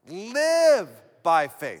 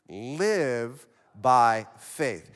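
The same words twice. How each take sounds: First: The word live is emphasized. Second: No word is specially emphasized.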